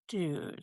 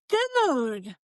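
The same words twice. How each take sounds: First: It sounds warm and sympathetic. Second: It sounds shocked and surprised.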